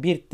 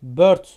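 First: Bird read with a plain i, birt; the mistaken Turkish reading; wrong reading. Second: Bird said with ö, bört, slowly; correct reading. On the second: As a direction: stretch bird with a Turkish ö vowel. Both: Shown as a demonstration. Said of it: "bird oluyor".

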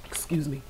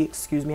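First: Soft unvoiced whisper. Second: Said in the usual way. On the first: Real, not acted. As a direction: breathe it out as a whisper. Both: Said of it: "I got the hiccups".

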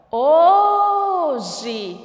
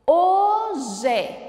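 First: HO de "Hoje" longo e forte; chamando a palavra. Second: "Hoje" em duas sílabas marcadas, ho-je; separando as sílabas. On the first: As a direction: chame "Hoje" esticando muito o HO. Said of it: "E qual é a sílaba tônica?". ("Hoje" alto, com a tônica HO prolongada) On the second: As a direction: marque cada sílaba de "Hoje". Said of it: "Duas sílabas". ("Hoje" silabado, com o "je" aberto) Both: Shown as a demonstration.

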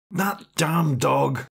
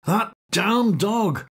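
First: Slow, sleepy grumble of "That damn dog"; half-awake muttered complaint; annoyed man mumbling in bed at the dog; grumbled. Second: Higher, slow exasperated "That damn dog!", stress on "damn"; annoyed man in bed cursing the barking dog; annoyed outburst. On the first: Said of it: "he muttered". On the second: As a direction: snap it out, fed up with the barking. Repeat louder, annoyed. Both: Acted.

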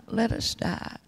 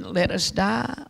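First: The plea fades to a breathless whisper. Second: Slow, drawn-out mild plea; retold plea of the damned. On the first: Retold or imitated. Souls in the valley echo their plea, whispered. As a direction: let the words die away in a whisper. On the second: Souls in the valley beg for death, slow mild plea. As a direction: say it slowly, like a lost soul begging. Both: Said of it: "and screaming".

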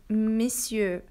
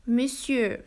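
First: "monsieur" said as "misieur", mouth less closed; right way. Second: "Monsieur" said with a wrong "mon" sound. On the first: Teacher shows students the correct "monsieur". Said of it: "we read it as monsieur". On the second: Teacher warns students, demonstrating wrong "Monsieur". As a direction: show the mistake on "Monsieur". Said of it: "we don't read it as monsieur". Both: Shown as a demonstration.

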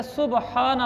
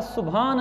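First: सुबहाना with a separate breathy ह after ब; correct pronunciation. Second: सुभान with ब and ह merged into भ; wrong pronunciation. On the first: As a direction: say सुबहाना as su-ba-haa-na, ब and ह apart. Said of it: "ये मैं अल्फाज आपको पढ़ के सुनाता हूँ". (सुबहाना, ब और ह अलग-अलग अदा करके) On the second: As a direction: say सुभान as su-bhaan, one aspirated bh. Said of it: "सुभान नहीं होता". (सुभान, ब और ह को मिलाकर भ) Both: Shown as a demonstration.

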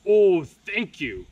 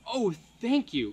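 First: Slow, much louder troll thanks; grateful troll cry. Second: Grateful cry. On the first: Grateful troll thanking Leo, loud and slow. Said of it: "cried the grateful troll". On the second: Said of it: "cried the griffin". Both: Acted.

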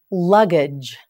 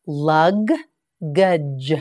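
First: Said in the usual way. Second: "Luggage" drawn out slowly, each sound held; teacher stretching "Luggage" for learners; slow, stretched model. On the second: Shown as a demonstration. Teacher models "Luggage" slowly for students, drawn out. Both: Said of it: "You try it".

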